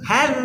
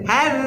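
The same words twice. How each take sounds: Both takes have the same delivery.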